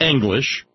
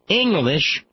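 First: The G sound is pronounced in the word. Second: The G sound is dropped from the word. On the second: "No G"

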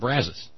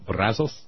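First: It is pronounced the way locals say it. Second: It is pronounced close to the Spanish way. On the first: "down to the last human being I spoke to, everybody said Brazos" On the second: "The Spanish pronunciation would be something close to Brazos"

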